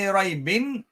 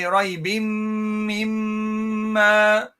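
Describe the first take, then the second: First: The word ends with a clear n sound. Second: The n merges into a nasal m sound. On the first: The speaker calls it wrong. "You don't say raibin" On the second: The speaker calls it right. "You say raibim mimma"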